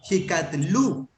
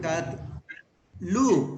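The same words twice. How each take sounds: First: Slow, clear model reading. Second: Slow sounding out. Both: Shown as a demonstration.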